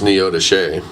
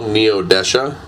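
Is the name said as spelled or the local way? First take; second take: local way; as spelled. First: The name is said the local way. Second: The name is said the way it is spelled. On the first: This is how people from the area say it. The speaker calls it right. "but it's Neodesha" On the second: This is how outsiders say the name. The speaker calls it wrong. "It's spelled Neodesha"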